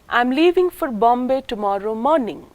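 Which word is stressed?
morning. The main stress falls on the word morning. "the first syllable of the word morning is the nucleus or the tonic syllable"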